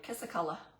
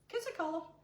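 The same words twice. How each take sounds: First: It is said in her normal accent. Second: It is said in a Southern accent.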